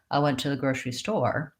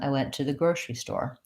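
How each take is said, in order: First: The stress falls on the word store. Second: The stress falls on the word grocery. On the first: The speaker calls it wrong. "you'll often hear non-native speakers say" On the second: The speaker calls it right. "rather than"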